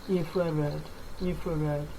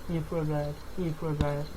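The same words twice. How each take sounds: No difference in how they are said.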